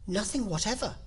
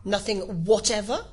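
First: Higher, unforced answer at normal volume; light-voiced confirmation from Alice; Alice's reply. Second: Louder, higher insistent question; insistent King, rising on "whatever"; persistent questioning. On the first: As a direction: answer simply, without pushing. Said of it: "said Alice". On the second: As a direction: press the witness with disbelief. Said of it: "persisted the King". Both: A narrator's reading.

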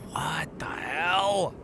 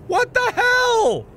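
First: Hushed, breathy disbelief; barely voiced, to yourself; whispered what the hell. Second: High, loud, slow disbelief; shouted what the hell. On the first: Streamer whispers at strange sight, hushed. Repeated exclamation, first whispered. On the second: Streamer yells at strange sight, loud. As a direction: yell it out in shock. Repeated exclamation, last shouted. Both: Real, not acted.

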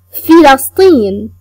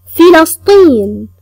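Both takes have the same delivery.

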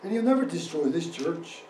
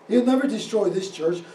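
First: Said in the usual way. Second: "He'll never destroy this church" hit louder; emphatic repeat. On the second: Real, not acted. Preacher repeats his vow to the congregation, emphatic and louder on "never destroy". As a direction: drive home "never destroy this church" with more force.

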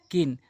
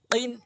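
First: কিন with a light forward k; everyday k in কিন; ordinary kaf. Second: কিন with a q from the tongue root; k of কিন made far back; back-of-tongue qaf. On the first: Teacher drills qaf against kaf, light k in কিন. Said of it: "আর এটি হচ্ছে কান". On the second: Teacher drills qaf against kaf, back q in কিন. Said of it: "জিহ্বার গোড়া থেকে". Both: Shown as a demonstration.

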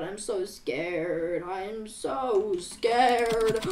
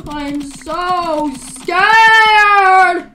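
First: Very soft, drawn-out scared plea; hushed fear. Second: Hammed-up fear, stretched very slow; drawn-out wail. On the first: Pretend. Player telling the others of being scared, in a hushed, slow voice. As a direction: draw out the fear in a small low voice. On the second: Player playing up being scared, in a long drawn-out wail. Same words built up to a wail.

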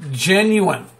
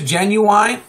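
First: "genuine" ending in a short -win; usual pronunciation. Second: "genuine" ending to rhyme with wine; long-i pronunciation. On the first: Vlogger choosing his word, plain "genuine" ending in -in. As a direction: say "genuine" as JEN-yoo-in, falling at the end. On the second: Vlogger checking his word, "genuine" rising on a long -wine. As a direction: say "genuine" as JEN-yoo-wine, rising like a question. Questioning the word he just used. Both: Shown as a demonstration.

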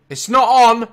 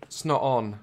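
First: High, very loud protest; alarmed shout. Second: Said in the usual way. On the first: Real, not acted. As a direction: yell it out in alarm. Same words, now shouted.

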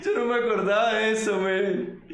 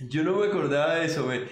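First: Laughing hard while saying it, pitch up; words bursting out through real laughter. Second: Said in the usual way. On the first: Real, not acted. Creator watching his old clip, laughing hard.

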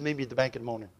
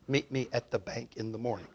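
First: Kentucky mumble. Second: Chuckling echo of the words; puzzled laughing echo. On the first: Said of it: "He spoke in an unusual way". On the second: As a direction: repeat it through a laugh, unsure. Repeating words he barely understood. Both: Retold or imitated.

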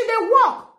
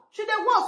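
First: Raised high and loud, insisting; first time, sharp and emphatic; defending her daughter, higher and louder; emphatic insistence. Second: Said in the usual way. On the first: Real, not acted. Defending daughter's shoe purchase.

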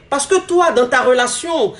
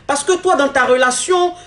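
Both takes have the same delivery.

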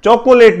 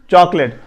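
First: چاکولیٹ as "cho-ko-late"; three syllables in چاکولیٹ; wrong pronunciation. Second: چاکلیٹ as "chaak-let"; two syllables in چاکلیٹ, like chalk plus let; corrected pronunciation. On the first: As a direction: voice the middle o of چاکولیٹ. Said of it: "چاکولیٹ نہیں پڑھنی". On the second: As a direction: drop the middle o from چاکلیٹ. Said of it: "وہ آپ consider کر لیں". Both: Shown as a demonstration.

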